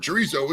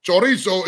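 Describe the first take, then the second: First: CHORIZO with an English r; English pronunciation. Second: CHORIZO with full 'cho' and tapped r; Spanish pronunciation. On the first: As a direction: say CHORIZO as 'chuh-REE-so'. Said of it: "Chorizo is an English word". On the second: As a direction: say CHORIZO as 'cho-REE-so' with Spanish r. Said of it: "chorizo is a Spanish word". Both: Shown as a demonstration.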